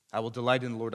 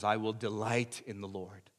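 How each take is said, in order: First: Louder repeat with "delight" punched; stress on delight. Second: Said in the usual way. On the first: Shown as a demonstration. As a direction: hit the word "delight" as you say it again.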